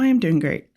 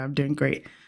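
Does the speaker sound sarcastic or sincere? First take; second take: sincere; sarcastic. First: It is said in a sincere, earnest tone. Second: It is said in a sarcastic, mocking tone. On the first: The speaker truly means it. "But I really do mean that" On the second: The speaker does not believe it. "it kind of came off like a, a sarcastic thing"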